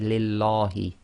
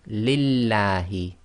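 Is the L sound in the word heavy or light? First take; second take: heavy; light. First: The L is thick, with a full mouth. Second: The L is thin, like in lamb. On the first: The speaker calls it wrong. "You cannot say Lillahi. That's wrong" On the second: The speaker calls it right. "Pronounce it with a la, as in the word lamb in English"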